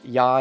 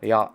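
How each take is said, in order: First: The Y sound is plain. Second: The Y sound is deeper.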